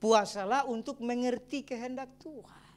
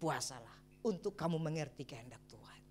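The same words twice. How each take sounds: First: Slow, weighty statement of the point; slow emphatic. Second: Softer whispered repeat of the point. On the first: Pastor stating the last point, slow and emphatic. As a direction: lay it down slowly and firmly. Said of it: "ini yang poin terakhir". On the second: Pastor repeating the final point to the church, whispered. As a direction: breathe it out in a whisper. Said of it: "Dan yang keempat". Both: Shown as a demonstration.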